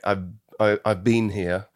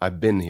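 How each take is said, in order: First: 'Been' is said with a long 'ee' vowel. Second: 'Been' is said with a short 'i' vowel. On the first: "the een is in"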